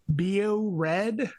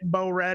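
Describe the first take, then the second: First: The first word has two syllables. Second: The first word has one syllable. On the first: The speaker calls it wrong. "I'm probably going to mispronounce this" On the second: The speaker calls it right. "Bo Red's easier to say"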